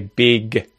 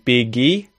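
First: The word ends cleanly on the g consonant. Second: An extra vowel sound is added after the g. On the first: The speaker calls it right. "we effectively have a consonant sound at the end" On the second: The speaker calls it wrong. "you're adding that E sound to it"

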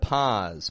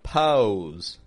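First: The vowel is a single open ah sound. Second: The vowel glides with rounded lips. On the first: The speaker calls it right. "I'm dropping my jaw, keeping my tongue kind of low" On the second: The speaker calls it wrong. "try to force that W or that U sound in there"

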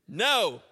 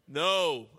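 First: It is said forcefully, almost screamed. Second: It is said calmly, without force.

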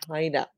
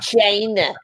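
First: The first vowel is softened. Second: The first vowel is hard and exaggerated. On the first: The speaker calls it right. "Soften that eye" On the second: The speaker calls it wrong.

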